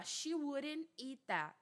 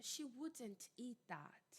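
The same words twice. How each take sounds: First: Slow sentence with WOULDN'T as "wurren", no T; American pronunciation. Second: Slow, soft, near-whispered British WOULDN'T with D and T sounded; careful British accent, every consonant in WOULDN'T; British pronunciation. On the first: Teacher reading the first example, American tapped WOULDN'T. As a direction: tap the D in WOULDN'T like a quick R. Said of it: "Ele vira um R". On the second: Teacher showing the other pronunciation, British accent. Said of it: "a pronúncia mais britânica". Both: Shown as a demonstration.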